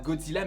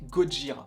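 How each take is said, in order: First: The name is said with a 'dz' and 'l'. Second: The name is said with a 'j' and 'r'. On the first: This is the Western form of the name. The speaker calls it wrong. "ne se prononce pas Godzilla" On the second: This is the original Japanese form of the name. The speaker calls it right. "en japonais, ... mais Gojira"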